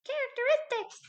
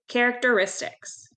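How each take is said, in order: First: It is said in a tiny, high squeaky voice. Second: It is said in an ordinary speaking voice.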